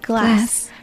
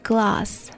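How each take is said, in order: First: The word is said in an American accent. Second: The word is said in an Australian accent. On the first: "美国这边是glass" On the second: "澳洲那边是glass"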